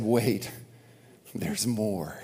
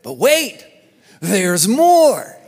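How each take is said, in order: First: Soft, low, reverent hush; quiet. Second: Home shopping host. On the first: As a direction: say it softly, in awe. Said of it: "and who said". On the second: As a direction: sell it like a TV pitchman. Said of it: "He coined a phrase". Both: Retold or imitated.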